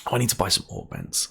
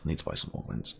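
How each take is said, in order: First: Said in the usual way. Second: Softer, whispered repeat under the breath; whispered to himself. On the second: Real, not acted. Muttering to himself about buying augments, whispered. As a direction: murmur it again just for yourself.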